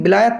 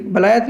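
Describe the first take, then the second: First: बिलायत with 'bi' at the start; correct reading. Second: बलायत with 'ba' at the start; as written. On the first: Teacher tells learners how it is read, बिलायत with 'bi'. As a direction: say बिलायत, short 'i' first. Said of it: "बिलायत पढ़ा जाता है". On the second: Teacher reads out what is written, बलायत with 'ba'. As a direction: say बलायत with 'a' first, as spelt. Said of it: "बलायत लिखा हुआ है लेकिन". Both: Shown as a demonstration.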